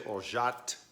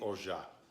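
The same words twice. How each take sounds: First: The word ends with an audible T sound. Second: The word ends without any T sound. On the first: "with a T on the end" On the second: "Most likely"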